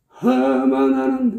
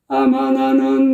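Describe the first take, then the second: First: The first vowel starts with an audible h sound. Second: The first vowel starts cleanly without any h sound. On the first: The speaker calls it wrong. "하마 나는 이런 식이 된단 말이에요" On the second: The speaker calls it right. "깔끔하잖아요"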